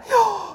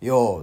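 First: It is spoken while breathing in. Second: It is spoken while breathing out.

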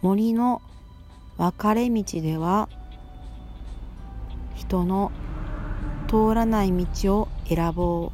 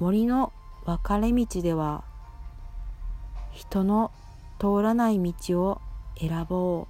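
Both takes have the same delivery.

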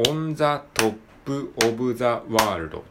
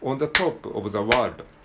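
First: Every syllable gets equal, even timing. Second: On the is quick; top and world carry beats.

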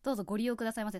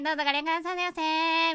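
First: It is said in a low, sexy voice. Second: It is said in a high, cute voice.

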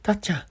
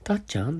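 First: The name is called out loudly. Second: The name is said in a small, quiet voice.

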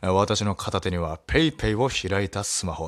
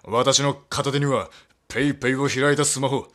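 First: It is read in his own tense reading voice. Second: It is read in a put-on anime character voice. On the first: "肩入った読み方しちゃいました" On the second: "ちょっとゾロの声やってみようか"

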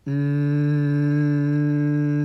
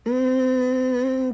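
First: The hum is low in pitch. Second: The hum is high in pitch.

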